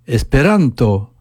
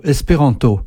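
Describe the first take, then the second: First: Esperanto with the next-to-last syllable RAN strong and long; stress on RAN. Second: Espéranto with every syllable given about the same weight; even French stress. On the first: Teacher demonstrates the tonic accent, Esperanto stressed on RAN. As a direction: lean on RAN in Esperanto, light final TO. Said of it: "j'accentue l'avant-dernière syllabe". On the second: Teacher shows listeners the French word, evenly stressed espéranto. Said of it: "chaque syllabe est prononcée à peu près avec la même intensité". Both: Shown as a demonstration.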